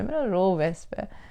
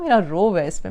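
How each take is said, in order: First: Softer, slower "मेरा रोब है इस पे" with "मेरा" stressed; quiet repeat. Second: Said in the usual way. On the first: Shown as a demonstration. To parents, repeating the bully's boast, softly. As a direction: lets the smug words sink in.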